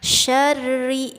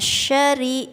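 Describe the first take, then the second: First: The r is doubled and pressed. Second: The r is said once, lightly. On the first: The speaker calls it right. "syarri ditekan" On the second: The speaker calls it wrong. "jangan syari"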